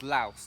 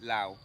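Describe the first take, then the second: First: The word ends with an S sound. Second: The word ends without an S sound. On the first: This is how it is said in English. "the correct way to say it is Laos, to protect to pronounce the S" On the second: This is how it is said in Laos. "when you're speaking in Laos, you call it Lao"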